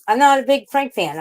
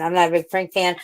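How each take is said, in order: First: "not" pitched high and loud, falling off at the end; emphatic. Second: Said in the usual way. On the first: Shown as a demonstration. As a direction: push hard on "not".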